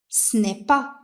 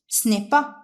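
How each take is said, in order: Both takes have the same delivery.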